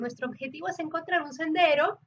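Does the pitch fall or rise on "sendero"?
rise. The pitch rises on "sendero" before the comma.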